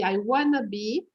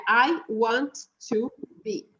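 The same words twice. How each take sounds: First: "I wanna be" with "want to" merged into "wanna"; contracted wanna. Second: "I want to be" word by word, each T sounded; full "want to" in "I want to be"; uncontracted. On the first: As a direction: colloquial "wanna" in "I wanna be", no T. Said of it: "é uma forma contraída". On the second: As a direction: separate every word of "I want to be". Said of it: "Ele sem a contração". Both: Shown as a demonstration.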